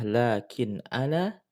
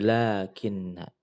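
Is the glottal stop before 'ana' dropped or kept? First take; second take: kept; dropped. First: The glottal stop is kept and the words stay separate. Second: The glottal stop is dropped and the two n's merge. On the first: "asalnya adalah lakin ana" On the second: "dihilangkan hamzah ... diidghamkan ... sehingga menjadi lakinna"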